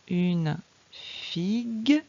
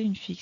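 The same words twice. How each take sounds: First: Very slow reading of "Une figue", rising at the end; deliberate, drawn-out phonics reading; slow sounding-out. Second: Said in the usual way. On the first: Shown as a demonstration. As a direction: read it word by word for a beginner. Teacher models word for reading.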